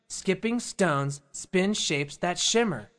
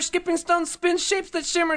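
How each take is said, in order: First: It is said at a normal pace. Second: It is said very fast.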